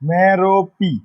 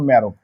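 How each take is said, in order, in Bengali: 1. নামটিতে তিনটি শব্দাংশ, শেষটি 'pee'। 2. নামটিতে দুটি শব্দাংশ, শেষটি 'b'। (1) "যদি এটা ল্যাটিন ল্যাটিন ল্যাঙ্গুয়েজ থেকে আনা হয়, তাহলে এটার উচ্চারণটা এমন হবে" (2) "আর যদি এটা গ্রিক হয়ে থাকে তাহলে উচ্চারণটা হবে"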